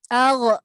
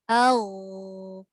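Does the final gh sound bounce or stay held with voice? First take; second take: bounced; held. First: The final gh ends with a bouncing release. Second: The final gh is held with continuous voice. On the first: The speaker calls it wrong. "kalau kita terlantun tu" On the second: The speaker calls it right. "yang betul?"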